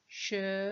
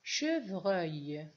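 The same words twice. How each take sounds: First: "Chevreuil" split slowly into che, pause, vreuil; découpage en syllabes. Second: Said in the usual way. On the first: Shown as a demonstration. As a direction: sound out "Chevreuil" in two held syllables. (« Chevreuil » découpé lentement : che… vreuil) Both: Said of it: "il y a combien de syllabes".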